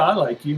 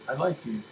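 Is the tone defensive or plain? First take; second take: defensive; plain. First: It is said in a guarded, defensive tone. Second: It is said in a plain, neutral tone. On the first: The tone undercuts the words and damages trust. "But then if my tonality is like" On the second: The words are meant at face value. "If I just have basic words"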